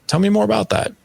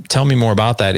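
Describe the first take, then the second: First: Lifted, welcoming invite, pitched much higher; a warm invitation to his son to talk; inviting. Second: Said in the usual way. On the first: Shown as a demonstration. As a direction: open the door with a bright high lift. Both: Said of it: "is the invite".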